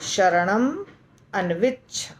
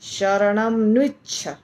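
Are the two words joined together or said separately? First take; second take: separately; joined. First: The two words are split apart. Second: The two words run together into one. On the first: The speaker calls it right. "आसान, बिल्कुल आसान। ... यानी तोड़ के।" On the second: The speaker calls it wrong. "कितना मुश्किल है। शरणम न्विच्छ तो ऐसे नहीं बोलेंगे।"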